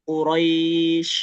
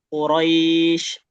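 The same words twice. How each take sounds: Both takes have the same delivery.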